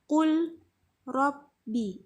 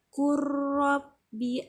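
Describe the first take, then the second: First: The l is pronounced separately before the r. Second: The l merges into a doubled r sound. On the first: The speaker calls it wrong. "itu salah" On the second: The speaker calls it right. "harus dibaca, diidghamkan dan ditasydidkan"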